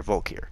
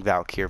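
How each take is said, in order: First: Volkir with "vol" up front; own pronunciation. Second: Valkyr with "val" up front; fuller pronunciation. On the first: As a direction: say Volkir as "VOLE-keer". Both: Shown as a demonstration. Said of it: "me calling Valkyr Volkir".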